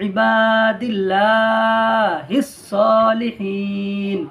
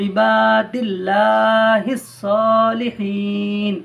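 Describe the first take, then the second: Both takes have the same delivery.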